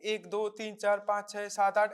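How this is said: The counts come at an even, steady beat. The heart beats faster but keeps a normal rhythm. "The rhythm will not have any abnormality in between them"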